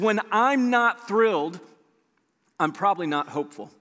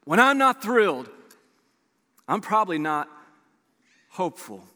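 First: Said in the usual way. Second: Long pauses before "I'm probably not" and "hopeful"; deliberate repeat. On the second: Real, not acted. Repeats phrase for weight.

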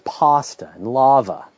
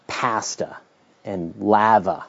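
First: "pasta" with an open ah as in father, "lava" the same; American way. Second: "pasta" with a flat a as in cat, "lava" the same; Canadian way. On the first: Host showing how his American wife says "pasta", broad ah. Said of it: "For her, it's". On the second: Host showing how a Canadian says "pasta", the flat a. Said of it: "the way I say". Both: Shown as a demonstration.

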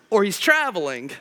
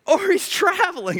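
First: Said in the usual way. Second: Pitched up high in mockery; mock taunt. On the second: Shown as a demonstration. Preacher redoing Elijah's taunt, high and mocking. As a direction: sing it out higher, teasing.

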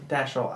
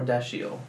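First: Dashel said as DASH-el, two syllables; Dashel, short two beats, stress on DASH. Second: Dashiell said as DASH-ee-el, three syllables; Dashiell, slower, stress on DASH. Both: Shown as a demonstration. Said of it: "I was thinking that or Dashiell".

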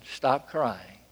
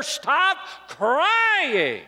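First: Low, soft instruction; gentle command. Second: High, stretched-out incredulous cry; mock cruel order. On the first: Retold or imitated. Jesus to the weeping woman, a gentle command. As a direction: drop it down softly, with quiet assurance. Jesus, who will fix the problem. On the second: Imagined pastor to a sobbing mother, mock cruel order. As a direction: draw it out high, as if unthinkable. Unthinkable words from a local pastor.

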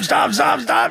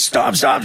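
First: "stop, stop" shouted very high in hammed-up panic; mock shout. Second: "Stop, stop" called out high, a playful plea; high mock plea. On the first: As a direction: scream "stop" as a tiny squashed ant. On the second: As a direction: call "Stop, stop" up high in pretend panic. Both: Mock pleading from ants.

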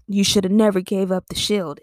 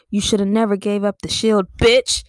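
First: Said in the usual way. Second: Shield line capped by a louder rising "bitch"; with bitch for emphasis. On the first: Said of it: "him saying". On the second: Retold or imitated. Bucky scolding Falcon, louder "bitch" at the end. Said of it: "that's a whole nother feeling".

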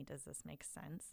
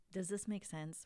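First: Put-on much softer and slower, a lost child asking; a hint of a worried little kid, softer and slower; small unsure voice. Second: Said in the usual way. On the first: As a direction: let it shrink to a slow, hushed question. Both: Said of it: "our kids are looking to us, to go".

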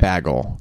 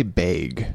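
First: "bagel" with the Midwest vowel, lower. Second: "bag" said the Midwest way, low; drawn-out Midwestern "bag". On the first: Friend contrasting Midwest "bagel" with "bag". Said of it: "They say". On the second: Friend mocking the Midwest vowel in "bag". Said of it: "they say". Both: Retold or imitated.

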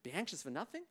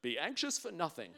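First: "nothing" lifted at the end as a question; doubting question. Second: Said in the usual way. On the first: Acted. Churchgoer questioning scripture, puzzled rise on "nothing". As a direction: query "nothing" with a rising tune. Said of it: "starting to question it". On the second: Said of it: "a little bit like quoting scripture".

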